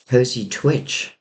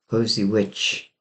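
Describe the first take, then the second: First: A t sound comes before the second word. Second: No t sound comes before the second word. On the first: The speaker calls it wrong. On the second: The speaker calls it right.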